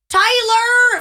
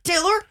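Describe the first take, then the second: First: The name is hollered out like a long call. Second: The name is said in a stern, scolding tone. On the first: It mimics a calling-contest shout. "I know that's not how they would call their husbands, but" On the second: It scolds him for throwing something away. "That is my stern Taylor voice. Like"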